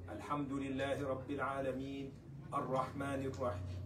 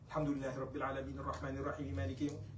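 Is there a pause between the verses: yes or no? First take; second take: yes; no. First: There is a pause after each verse. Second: The verses run together in one breath.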